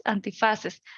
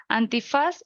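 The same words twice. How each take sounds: First: Antifaces settled down at the end; falling plural. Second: Antifaz with a lifting end; rising citation. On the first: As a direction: close the pair with a falling antifaces. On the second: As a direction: list antifaz with a rise. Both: Shown as a demonstration. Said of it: "antifaz sería antifaces".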